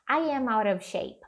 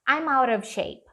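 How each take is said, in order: First: I am is said as two full words. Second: I am is reduced to one syllable, I'm. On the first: The speaker calls it right. "Ao invés de falar I am" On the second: The speaker calls it wrong. "você pode reduzir isso aqui para I'm"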